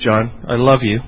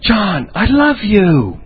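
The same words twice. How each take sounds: First: The voice sounds flat and unconvincing. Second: The voice sounds warm and sincere. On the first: The words are not believed. The speaker calls it wrong. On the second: The words are believed. The speaker calls it right.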